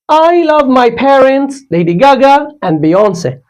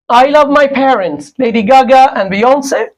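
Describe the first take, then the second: First: There is a short pause before 'and'. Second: It runs on with no pause before 'and'.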